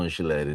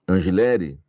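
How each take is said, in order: First: The middle consonant is a ch sound. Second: The middle consonant is a hard g sound.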